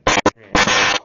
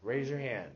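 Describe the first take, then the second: First: Much louder, calling over the class; teacher calling the class to order loudly; loud repeat. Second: Said in the usual way. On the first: Real, not acted. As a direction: raise the voice so the whole room hears.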